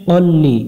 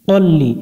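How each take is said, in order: No difference in how they are said.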